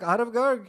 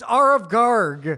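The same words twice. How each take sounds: First: The name is said with an Indian pronunciation. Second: The name is said with an American pronunciation. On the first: "Indian, the way you pronounce it" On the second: "It's not how you say it"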